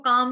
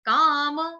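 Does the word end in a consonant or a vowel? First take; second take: consonant; vowel. First: The word ends on a bare m sound. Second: The final m is followed by a vowel. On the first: The speaker calls it wrong. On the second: The speaker calls it right.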